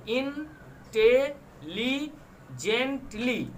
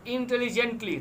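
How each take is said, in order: First: "intelligently" spread slowly over five separate beats; syllable by syllable. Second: Said in the usual way. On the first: Shown as a demonstration. Teacher demonstrating five syllables to students, "intelligently" split slowly. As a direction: leave a gap after each syllable of "intelligently". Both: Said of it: "five syllables".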